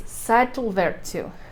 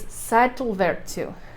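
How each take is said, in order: First: The double L sounds like TL. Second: The same.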